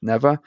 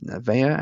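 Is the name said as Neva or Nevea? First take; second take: Neva; Nevea. First: The name is said as Neva. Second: The name is said as Nevea. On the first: The speaker calls it wrong. "I pronounced it incorrectly as Neva" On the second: The speaker calls it right. "It is pronounced Nevea"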